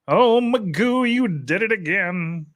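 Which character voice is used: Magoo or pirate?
Magoo. It is said in a put-on Magoo voice. "in a Magoo voice"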